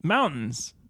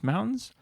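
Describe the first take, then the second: First: "Mountains." starting high, then falling; falling statement. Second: High, rising "Mountains?"; questioning rise. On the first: Answering own question to co-host, "Mountains." with a fall. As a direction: drop "Mountains." down as a settled answer. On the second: Finding the thread again, asking "Mountains?" with a rise. Questioning, then answering oneself. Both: Real, not acted.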